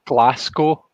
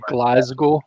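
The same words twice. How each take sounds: First: The middle consonant sounds like an s. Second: The middle consonant sounds like a z. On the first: "he pronounces the S as an S and not like a Z" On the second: "we say Glasgow"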